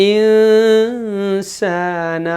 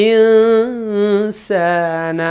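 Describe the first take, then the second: Both takes have the same delivery.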